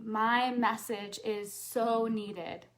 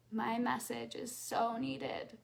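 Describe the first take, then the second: First: Slow, sincere affirmation. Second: Softer, slow repeat of the affirmation. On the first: Coach leads audience in affirmation, slow and sincere. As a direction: say it slowly, meaning every word. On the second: Coach repeats affirmation to audience, softly and slowly. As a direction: say it again, slowly, almost to yourself. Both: Shown as a demonstration. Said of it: "And say out loud".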